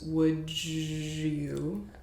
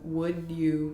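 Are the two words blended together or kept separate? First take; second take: blended; separate. First: The d and y blend into a j sound. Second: The d and y sounds stay separate.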